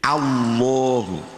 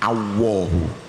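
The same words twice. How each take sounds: First: The l is heavy, with the lips pushed forward. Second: The l turns into a w sound. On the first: The speaker calls it right. "dibaca tafkhim berarti agak dimoncongkan" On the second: The speaker calls it wrong. "Kalau gandul itu berarti jadi wawu, ... Ini salah besar"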